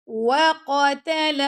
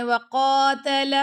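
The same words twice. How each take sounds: First: Chanted وَقَتَلَ with no stretch on قَ; short vowels. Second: وَقَاتَلَ with a stretched aa after ق; overlong qaf. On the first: Teacher showing students the correct وَقَتَلَ, even short vowels. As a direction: keep each vowel of وَقَتَلَ equally short. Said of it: "حرکت ہے نا". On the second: Teacher showing students the mistake, وَقَاتَلَ with a long qaa. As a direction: drag out the قَا in وَقَاتَلَ. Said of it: "قاف لمبا ہو گیا آپ کا". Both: Shown as a demonstration.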